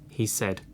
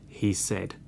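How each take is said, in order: Both takes have the same delivery.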